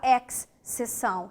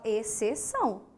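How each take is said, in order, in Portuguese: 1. O x e o c são pronunciados separadamente. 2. O x e o c formam um único som de s. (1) "Você não fala exceção" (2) "você fala exceção"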